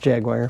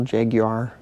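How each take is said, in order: First: It is said in an everyday, ordinary pronunciation. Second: It is said the way the car commercials say it. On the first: It is how people who don't own one say it. "So it's Jaguar for us" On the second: It mimics the carmaker's own advertising. "is that how they pronounce it in that commercial?"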